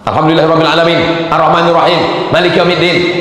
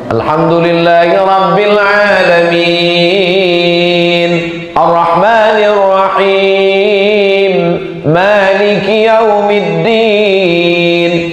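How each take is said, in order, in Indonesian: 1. Bacaannya terdengar marah dan keras. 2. Bacaannya terdengar tenang dan teratur.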